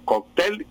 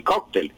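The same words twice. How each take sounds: First: First "cóctel" said kok-TEL; slow "cóctel" with weight on TEL; final stress. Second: Second "cóctel" said KOK-tel; slow "cóctel" with weight on KOK; first-syllable stress. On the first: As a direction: stress "cóctel" on the last syllable. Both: Shown as a demonstration. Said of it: "el diccionario recoge las dos".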